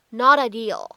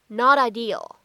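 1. 这个 t 是闪音，连到 'ideal' 里。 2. 这个 t 是闪音，连到 'ideal' 里。

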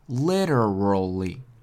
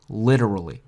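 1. 这个词读得慢而且仔细。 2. 这个词读得快而且流畅。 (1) "我们先慢慢的读" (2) "然后加快"

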